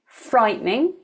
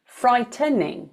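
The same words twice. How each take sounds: First: Frightening said as FRITE-ning, two syllables, rising at the end; frightening with t straight into n; two-syllable pronunciation. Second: Frightening said as FRY-tuh-ning, three syllables; frightening with uh between t and n, falling at the end; three-syllable pronunciation. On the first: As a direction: leave out the middle vowel in frightening. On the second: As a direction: keep the middle vowel in frightening. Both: Shown as a demonstration. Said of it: "some people might say".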